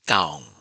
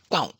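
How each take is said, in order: First: The vowel is drawn out long. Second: The vowel is short. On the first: "long vowel" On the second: "short vowel"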